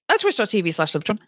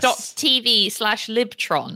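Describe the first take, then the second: First: It is said very fast. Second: It is said more slowly.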